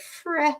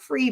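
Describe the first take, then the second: First: The vowel is shorter, like 'freh'. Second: The vowel sounds like the word 'free'. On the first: The speaker calls it right. "but fre" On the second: The speaker calls it wrong. "it's not free"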